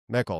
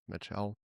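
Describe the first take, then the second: First: The name is said with a German sound. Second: The name is said with an English sound. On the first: The speaker calls it right. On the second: The speaker calls it wrong.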